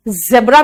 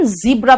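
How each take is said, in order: First: ज़ेब्रा with an e, "zeb-ra"; first accepted pronunciation. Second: ज़ीब्रा with an ee, "zee-bra"; second accepted pronunciation. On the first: Teacher offering one valid option, e vowel. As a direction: say ज़ेब्रा with a short e. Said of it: "ज़ेब्रा भी बोल सकते हो". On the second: Teacher offering the other valid option, ee vowel. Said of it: "ज़ीब्रा भी बोल सकते हो". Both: Shown as a demonstration.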